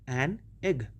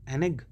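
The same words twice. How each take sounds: First: The two words are said with a break between. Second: The two words are joined as one word. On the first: The speaker calls it wrong. "अलग अलग नहीं बोलेंगे" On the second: The speaker calls it right. "ये एक word sound करना चाहिए"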